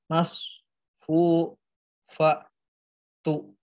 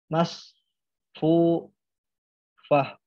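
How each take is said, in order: First: The word ends with a t sound and vowel. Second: The word ends with a soft h sound. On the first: The reading continues into the next word. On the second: The reading stops at this word.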